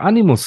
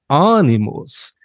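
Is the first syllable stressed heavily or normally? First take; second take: normally; heavily. First: The first syllable carries ordinary, plain stress. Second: The first syllable is stressed very strongly. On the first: The speaker calls it right. "dass er nicht einfach Animus sagen kann" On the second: The speaker calls it wrong. "wann wurde das A so krass betont?"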